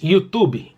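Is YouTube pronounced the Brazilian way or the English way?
Brazilian. It is said with a Brazilian Portuguese pronunciation. "Mas no Brasil todo mundo diz YouTube"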